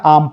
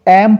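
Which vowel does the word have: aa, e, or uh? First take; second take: aa; e. First: The vowel is a long aa sound. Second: The vowel is an e sound. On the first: The speaker calls it wrong. "बिल्कुल गलत हो जाएगा" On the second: The speaker calls it right. "तो इसको एम पढ़ेंगे"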